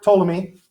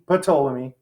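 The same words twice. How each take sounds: First: The word starts with a T sound, no P. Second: The word starts with a P sound before T.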